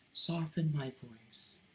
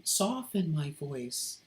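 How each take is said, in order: First: Softer, gently eased-off delivery; softened voice. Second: Said in the usual way. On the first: Shown as a demonstration. Reminding oneself to soften the voice, spoken softly. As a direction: say it again softly, letting the voice relax. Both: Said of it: "I should soften".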